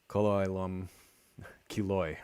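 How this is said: It uses an Ashkenazi, Yiddish-style Hebrew pronunciation. "the sort of interland Yiddish pronunciation"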